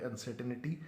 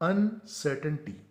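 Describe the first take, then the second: First: An extra vowel is inserted before the final 'ty'. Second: The final 'ty' follows the 'n' with no extra vowel. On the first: The speaker calls it wrong. "जबकि ये तलफ़ुज़ सरीहन गलत है" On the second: The speaker calls it right. "लफ्ज़ है अनसर्टनटी"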